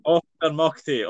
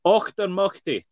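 First: Auchtermuchty slowly, Scottish och; Scottish pronunciation. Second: Auchtermuchty with a Scottish och, ockter-mucky; Scottish pronunciation. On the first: Scottish host repeats the town name slowly for the guest. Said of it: "the och or the much". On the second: Scottish host demonstrates the town name: Auchtermuchty. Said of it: "do you wanna know what it actually sounds like". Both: Shown as a demonstration.

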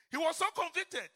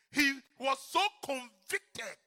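First: "so" punched higher on the repeat; raised repeat. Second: "so" drawn out slowly and heavily; slow emphasis. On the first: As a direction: lift the repeat up high. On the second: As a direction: lean hard on "so", slow it right down. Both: Shown as a demonstration.

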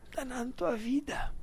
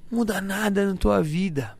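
First: Breathy whispered repeat; whispering. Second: Said in the usual way. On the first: Real, not acted. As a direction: drop to a whisper.

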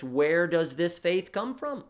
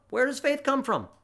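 First: Said in the usual way. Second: Faith pitched high, question said quicker; rhetorical question with stress on faith. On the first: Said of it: "Heidelberg sixty-five asks this". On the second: Shown as a demonstration. Preacher asking his congregation, stress on faith.

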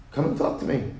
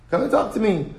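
First: Plain appeal. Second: "Come and talk to me" pitched higher, pleading on talk; pleading appeal. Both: Shown as a demonstration. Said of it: "repeated appeal".

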